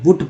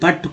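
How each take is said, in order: First: The vowel is a short oo sound. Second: The vowel is a short uh sound. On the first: The speaker calls it wrong. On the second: The speaker calls it right.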